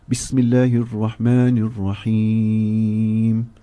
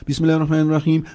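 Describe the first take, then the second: First: The phrase is said slowly. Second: The phrase is said quickly. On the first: The words are read while reflecting on their meaning. The speaker calls it right. "we read it slowly" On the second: The words are rushed without reflecting on their meaning. The speaker calls it wrong. "gone are the days that we quickly read Surah Al-Fatiha"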